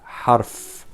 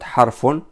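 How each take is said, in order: First: The word stops on its final consonant. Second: The word ends with an added vowel ending. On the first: The speaker calls it right. "but harf. Stop. Without harak" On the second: The speaker calls it wrong. "Not harfun"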